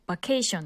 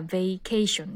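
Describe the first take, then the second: First: バケーション said as flat katakana ba-ke-e-shon; バケーション with Japanese katakana vowels, ba-kee-shon; バケーション the Japanese loanword way; katakana English. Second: ベイケーション with the English vay diphthong, vay-KAY-shun; ベイケーション said as English vacation; ベイケーション stressed on KAY, English style; correct English. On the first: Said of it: "完全にカタカナ英語で". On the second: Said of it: "正確にはベイケーションですよね". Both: Shown as a demonstration.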